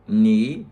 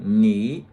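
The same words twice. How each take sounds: Both takes have the same delivery.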